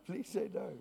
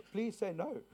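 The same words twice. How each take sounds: First: Said in the usual way. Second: Playful pleading. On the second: Real, not acted.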